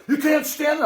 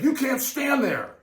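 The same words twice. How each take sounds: First: High, louder mock guard order; a higher imitated warning, said again; mock security guard repeating. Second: High, slow mock guard order; a higher, slow imitated warning; mock security guard. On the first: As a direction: repeat the rule with mock authority. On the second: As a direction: lay down the rule like a fussy guard.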